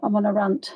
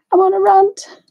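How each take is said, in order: First: Said in the usual way. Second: Repeats it higher through a laugh. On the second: Real, not acted. Admitting to viewers she is ranting, laughing. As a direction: laugh at yourself as you say it.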